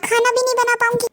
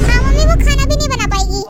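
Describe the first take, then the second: First: Said in the usual way. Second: Louder, announcing "खाना भी नहीं बना पाएगी" to mom; loud phone announcement to mother. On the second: Acted. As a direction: call it out to mom so she hears. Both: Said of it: "कह दो।".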